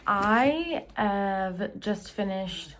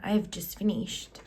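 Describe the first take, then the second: First: It is said in a put-on accent. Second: It is said in her ordinary accent.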